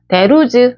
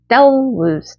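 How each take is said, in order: First: The first word is long with an open mouth. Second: The first word is short with a closed mouth. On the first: The speaker calls it wrong. "there was 아니고요" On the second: The speaker calls it right. "the를 좀 짧고 어, 배에서 올라오는 강세로 하시면 돼요. 입 많이 벌리면 안 되고요"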